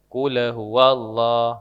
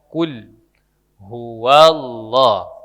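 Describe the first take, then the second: First: The lam bounces with an added vowel after it. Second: The lam ends cleanly with no added vowel. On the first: The speaker calls it wrong. "Jangan di, digabung" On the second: The speaker calls it right. "huruf lam itu tidak dipantul"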